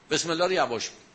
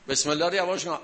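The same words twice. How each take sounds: First: الله lifted and leaned on, the rest falling; emphatic الله in a teaching repeat; stress on الله. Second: یواش leaned on, a touch louder, then falling; emphatic یواش in a teaching repeat; stress on یواش. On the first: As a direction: hit الله in بسم الله, then let the line fall. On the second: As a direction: land the weight on یواش. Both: Shown as a demonstration. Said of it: "repeating the point for emphasis".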